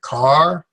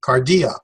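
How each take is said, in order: First: "cardia" split as car... dee... ah; syllable by syllable. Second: "Cardia" joined as car-DEE-ah; whole word. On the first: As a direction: pause between all three syllables of "cardia". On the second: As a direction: say "Cardia" in one go, no gaps. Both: Shown as a demonstration. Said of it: "there are three syllables".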